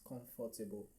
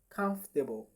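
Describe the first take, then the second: First: Every syllable follows the spelling, including 'for'. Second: It sounds like 'comf' and 'table' joined together. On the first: The speaker calls it wrong. "many persons pronounce this as comfortable" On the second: The speaker calls it right. "The correct pronunciation is comfortable... like comf and table put together"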